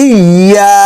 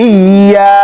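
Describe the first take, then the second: Both takes have the same delivery.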